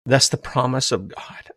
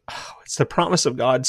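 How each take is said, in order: First: Said in the usual way. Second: Breathy whispered aside. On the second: Real, not acted. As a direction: hush it to a whisper. Whispered repeat of phrase.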